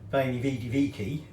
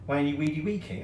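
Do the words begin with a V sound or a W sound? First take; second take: V sound; W sound. First: Each word begins with a V sound. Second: Each word begins with a W sound.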